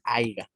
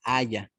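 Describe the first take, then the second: First: "haya" said as "haiga", with a g before the final a; wrong haiga. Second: "haya" said as two clean syllables, a-ya, no g; correct haya. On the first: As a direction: say "haya" as a-ig-a, the common mistake. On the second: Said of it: "se dice". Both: Shown as a demonstration.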